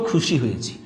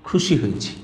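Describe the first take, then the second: No difference in how they are said.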